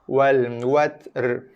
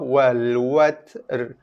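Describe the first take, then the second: First: The t is finished before a separate r. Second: The t is finished before a separate r.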